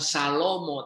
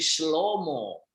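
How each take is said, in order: First: The name begins with a separate 'sa' syllable. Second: The name begins with a 'shl' cluster. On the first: The speaker calls it wrong. "Shlomo itu bukan Salomo" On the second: The speaker calls it right. "tapi Shlomo"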